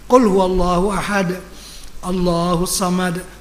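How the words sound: There is a breath pause between the phrases. The reciter stops at the end of the verse. The speaker calls it right. "Begitu. Jangan berhenti tak bernafas"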